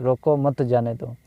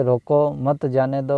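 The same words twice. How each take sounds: First: "रोको मत" as one unit, then "जाने दो"; slight break after "मत", before "जाने दो"; विराम का स्थान दिखाना. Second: Short break after "रोको", then "मत जाने दो"; विराम का स्थान दिखाना. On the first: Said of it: "और एक होता है". ("रोको मत" साथ, फिर हल्के विराम से "जाने दो") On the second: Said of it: "एक तो होता है". ("रोको" के बाद हल्का विराम, फिर "मत जाने दो") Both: Shown as a demonstration.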